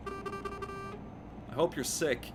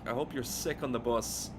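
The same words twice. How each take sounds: First: Slow, drawn-out and higher, spitting out a mock curse; drawn-out mock curse, pitched higher. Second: Said in the usual way. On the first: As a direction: stretch every word like a hex. Spiteful curse at a bus rider.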